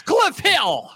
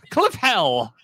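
First: Said in the usual way. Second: "Hell" with an open eh vowel; Hill as Hell. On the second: Shown as a demonstration. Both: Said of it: "It's Hill, not Hell".

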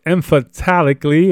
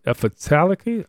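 First: Said in the usual way. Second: Questioning, softer try at "emphatically"; unsure of pronunciation. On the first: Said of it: "or I said that word". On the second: Real, not acted. Teacher doubting how to say a word, unsure. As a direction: say "emphatically" tentatively, with a rising questioning end. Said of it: "I don't know how to say that".

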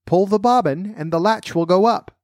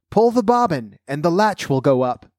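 First: Wolf's high put-on grandmother voice; softened voice. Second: High grandmother voice, easing down at the end; crying out. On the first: Wolf calls to the girl as grandmother, softened high voice. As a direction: pitch it up, posing as grandmother. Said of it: "softening his voice as much as he could". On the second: Sick grandmother calls to her visitor, crying out in high pitch. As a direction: call from bed in a high voice. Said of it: "cried out". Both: A narrator's reading.

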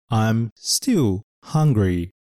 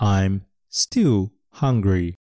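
First: I'm still hungry slowly, still stressed and falling. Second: I'm still hungry very slowly, still stressed; slow repeat-after-me. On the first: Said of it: "still の単語を足すと". (stillを強めてゆっくり) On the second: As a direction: model it slowly for the class. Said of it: "このセンテンスも一緒に言ってみましょう". (ゆっくり一緒に言うお手本) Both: Shown as a demonstration.

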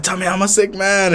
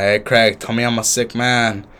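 First: Put-on high-pitched drunken demand; mock-pleading, pitched way up like an insistent drunk; imitating drunk insistence. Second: Imitating drunk self. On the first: Retelling his drunk demand to Craig, high insistent plea. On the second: Retelling a drunk video to co-host, mock drunken plea. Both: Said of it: "I was slurring my words".

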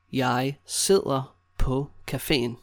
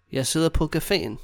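First: Slow, with gaps between words. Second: Said in the usual way. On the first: Shown as a demonstration. Teacher showing learners how to say sitting at the café, slowly. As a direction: separate each word for a learner.

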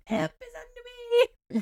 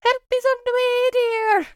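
First: High, hushed mock yell; retold yell. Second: High-pitched, sustained meme falsetto; Mrs. Doubtfire. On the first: Friend retelling a yell down the hallway, softened mock yell. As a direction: imitate yelling the meme, but softly. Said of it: "I literally yelled". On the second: Acted. Coworker quoting a film meme for someone needing help, high-pitched impression. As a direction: sing out a much higher matronly cry. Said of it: "the Doubtfire meme of".

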